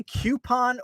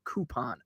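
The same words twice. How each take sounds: First: Coupon said KYOO-pon; KYOO-pon pronunciation. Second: Coupon said KOO-pon; KOO-pon pronunciation. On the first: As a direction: say coupon with a "kyoo" first syllable. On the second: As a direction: say coupon with a plain "koo" first syllable. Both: Shown as a demonstration. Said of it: "do you say coupon or coupon".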